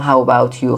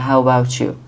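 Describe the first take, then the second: First: The t and y are said as separate sounds. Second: The t and y blend into one sound. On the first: The speaker calls it wrong. "نمیگم how about you" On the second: The speaker calls it right. "تی و یو وقتی پشت سر هم دیگه میاد چه تلفظ میشه؟"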